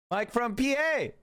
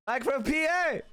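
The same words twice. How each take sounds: First: Slow, silly, put-on announcer voice; calls a chatter's name slowly in a goofy put-on voice. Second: High, goofy, put-on announcer voice; higher silly announcer voice. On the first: Streamer calling out a chatter's name, slow goofy voice. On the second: Streamer repeats the chatter's name, higher goofy hammed-up call.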